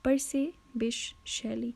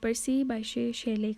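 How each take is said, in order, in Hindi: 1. बीच का नाम 'bish' जैसा सुनाई देता है। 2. बीच का नाम 'bye-shay' जैसा सुनाई देता है। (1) "this is the correct pronunciation" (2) "that's not the correct way of pronunciation"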